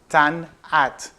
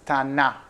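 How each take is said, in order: First: The final T is clearly pronounced. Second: The final T is left silent. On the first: "That's the way it should be pronounced, the way we pronounce it in the Southwest" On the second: "without the T at the end"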